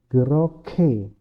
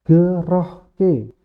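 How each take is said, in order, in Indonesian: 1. K-nya diaspirasi, tanpa h yang terpisah. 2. Terdengar h yang terpisah sebelum k.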